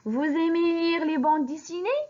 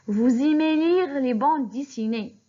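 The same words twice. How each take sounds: First: The voice rises at the end. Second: The voice falls at the end.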